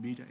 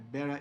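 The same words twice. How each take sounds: First: It is said with a British accent. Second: It is said with an American accent.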